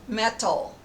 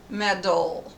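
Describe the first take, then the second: First: The middle consonant is a clear, released T. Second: The middle consonant is a short D-like tap.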